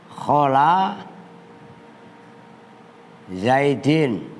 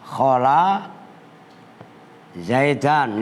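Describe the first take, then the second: First: The name ends with an 'in' sound. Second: The name ends with an 'an' sound. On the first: The noun is read in the genitive case. "Pertama dibaca jer" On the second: The noun is read in the accusative case. "Boleh juga"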